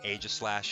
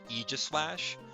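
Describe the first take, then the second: First: The first part does not sound like aegis. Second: The first part sounds like the word aegis. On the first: "some of you will say Aegislash" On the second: "I always say Aegislash. Um, Aegis, like the shield from Greek mythology"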